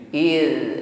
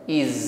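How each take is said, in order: First: The final consonant is soft, without hissing. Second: The final consonant is a hissing z sound. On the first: The speaker calls it right. "lembut saja dan alirkan suaranya" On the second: The speaker calls it wrong. "bukan iz, tidak mengeluarkan desisan"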